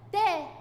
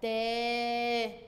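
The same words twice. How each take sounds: First: "تا" said short and quick, higher and louder; short vowel. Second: "تا" with the aa held long on one steady note; long vowel. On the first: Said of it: "الحركات القصيرة بتتنطق على طول بسرعة". ("تا" بحركة قصيرة وسريعة) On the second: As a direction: stretch out the vowel of "تا". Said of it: "مد بالألف هنطول". ("تا" ممدودة بالألف) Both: Shown as a demonstration.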